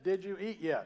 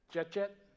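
First: Every word of the phrase is said separately. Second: The whole phrase is squeezed into one syllable. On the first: "you don't recognize that?" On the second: "I would say"

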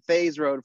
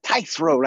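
First: The name rhymes with 'days'. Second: The name rhymes with 'dice'. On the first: The speaker calls it wrong. "I've been saying Thays Road for the longest time" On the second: The speaker calls it right. "when I heard him say, he's like, Tice Road"

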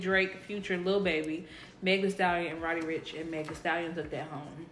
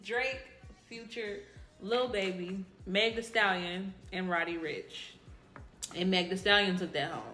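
First: The list is read quickly. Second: The list is read slowly, like an announcer.

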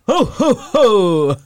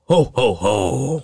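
First: It sounds happy and cheerful. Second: It sounds raspy and scary.

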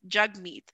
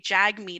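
First: The name is said with a Punjabi pronunciation. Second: The name is said with an English pronunciation. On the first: The speaker calls it right. "it's Jagmeet" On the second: The speaker calls it wrong. "a lot of people say Jagmeet"

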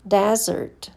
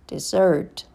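First: The stress is on the first syllable. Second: The stress is on the second syllable. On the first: It is a noun. "First, you hear the noun" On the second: It is a verb. "and then the verb"

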